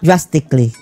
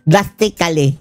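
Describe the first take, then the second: First: The ending is reduced to a quick 'klee'. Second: The ending is said fully as 'kali'. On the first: This is the expected proper way to say it. The speaker calls it right. "Bawal daw yung kali-kali eh. Dapat" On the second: This is how ordinary local folks say it. The speaker calls it wrong. "Tayo mga kababayang mga hampas lupa"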